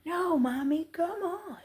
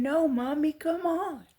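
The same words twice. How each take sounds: First: Put-on high, playful child voice, much higher; imitating toddler. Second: Put-on high, loud, playful child voice; imitating toddler. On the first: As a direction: squeak it like a toddler teasing mom. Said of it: "And she's going". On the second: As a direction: mimic a little girl running off laughing. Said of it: "And she's saying".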